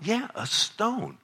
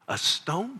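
First: High, slow, drawn-out A STONE; acted dad relishing the child's amazement; emphatic confirmation. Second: High, rising disbelief on A STONE; childlike astonished echo; amazed child. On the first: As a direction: savor the answer for a child. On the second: Acted. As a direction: imitate a wide-eyed kid questioning. Child amazed at dad's story.

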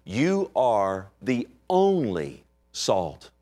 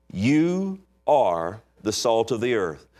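First: Very slow, with "only" drawn out and weighted; stress on only. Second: "You" pressed hard, the rest slow and deliberate; stress on you. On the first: Preacher rereading the verse, slow, weighting "only". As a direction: linger on "only" in this slow reading. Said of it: "it could read like this". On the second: Preacher to congregation, slow, with weight on "You". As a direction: lean on "You", then unfold the line slowly. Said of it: "it's emphatic". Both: Shown as a demonstration.

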